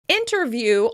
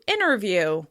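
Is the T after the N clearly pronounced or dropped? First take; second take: clear; dropped. First: The T after the N is clearly pronounced. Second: The T drops, so it starts like inner.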